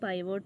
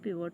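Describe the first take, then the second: First: The first vowel sounds like 'eye'. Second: The first vowel sounds like 'ih'. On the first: "പൈവോട്ട് എന്നായിരിക്കും ചിലർ pronounce ചെയ്യുന്നത്" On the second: "പിവോട്ട് എന്നും പറയും"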